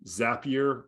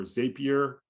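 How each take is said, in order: First: Zapier with a short "a", as in "zap"; first pronunciation variant. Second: Zapier with a long "a", as in "zay"; alternative pronunciation. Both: Shown as a demonstration. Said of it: "I never know how to pronounce that".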